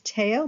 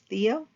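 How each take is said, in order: First: The name is said with a French pronunciation. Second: The name is said with an English pronunciation. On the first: "in the French they generally uh, pronounce it as Theo" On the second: "We would pronounce it as Theo"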